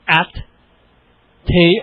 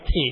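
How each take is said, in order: First: A long pause separates the two syllables. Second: The two syllables run closely together. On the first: "wait a long time between the syllables? Do I have to go like at tea?" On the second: "move them together a little closer"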